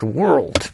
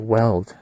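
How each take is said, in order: First: The word has the full r and l sounds. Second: The word sounds like weld, with no r. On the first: The speaker calls it right. "know how to even fucking say the word world" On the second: The speaker calls it wrong. "They say weld"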